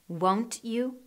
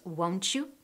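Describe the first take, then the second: First: The t and you are said separately. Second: The t and you merge into ch.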